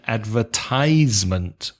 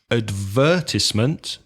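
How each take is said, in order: First: The stress falls on the third syllable. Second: The stress falls before the third syllable. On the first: "stressing the third syllable" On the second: "the U K pronunciation"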